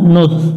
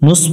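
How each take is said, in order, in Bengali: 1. ব্যঞ্জনটি একটি নরম লিসপড 'th' ধ্বনি। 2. ব্যঞ্জনটি একটি তীক্ষ্ণ হিসহিসে 's' ধ্বনি। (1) "এটা জিহ্বার আগা থেকে একটু পাতলা করে পড়বো" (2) "অনেকজনে ভুল করে নুস, নুস পড়া যাবে না"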